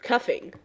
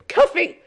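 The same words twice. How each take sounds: First: Said in the usual way. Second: "Cuffing" shouted high and loud; triumphant correction. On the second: Real, not acted. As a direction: snap out the corrected word "Cuffing".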